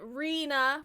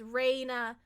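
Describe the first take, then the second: First: The first syllable sounds like 'ree'. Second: The first syllable sounds like 'ray'. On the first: The speaker calls it wrong. "Most people do count uh, pronounce it Rena" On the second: The speaker calls it right. "but it is Reina, like a sunshine bit of light"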